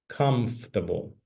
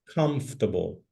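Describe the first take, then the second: First: The middle 'or' is dropped, three syllables. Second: The same.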